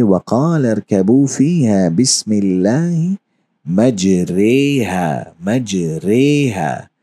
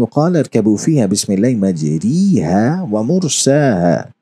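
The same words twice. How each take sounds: First: Recitation bending मजरेहा to an e sound, very slow; Arabic verse with imala on मजरेहा; imala, majreha. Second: Quranic recitation saying मजरीहा with a plain long i; Arabic verse in recitation voice, majriha; recited with majriha. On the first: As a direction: stretch मजरेहा slowly with the e between a and i. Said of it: "यहाँ पे हम इसको पढ़ेंगे". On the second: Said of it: "आप पढ़ेंगे". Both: Shown as a demonstration.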